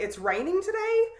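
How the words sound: It is said as a question.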